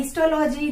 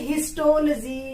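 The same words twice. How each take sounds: First: Histology as histo-LOH-jee; mispronounced histology. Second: Histology as his-TOL-jee; corrected pronunciation. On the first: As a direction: keep "logy" a separate unit in histology. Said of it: "not, it is called". (histology को हिस्टो-लोजी तोड़कर) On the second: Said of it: "it is called histology". (histology को हिस्टोल-जी बोलकर) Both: Shown as a demonstration.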